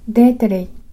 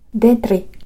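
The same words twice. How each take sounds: First: The r is a tap after an inserted vowel sound. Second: The r is a trill with the tongue tip. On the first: "干渉音と弾き音を使うと" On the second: "舌の先を震わせる音を使うと"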